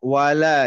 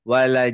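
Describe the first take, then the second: No difference in how they are said.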